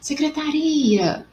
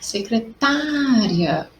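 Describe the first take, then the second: First: The stress falls on the syllable ri. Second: The stress falls on the syllable ta. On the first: "o uri aí ficou mais forte" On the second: "eu grito minha secretária... Foi o tá"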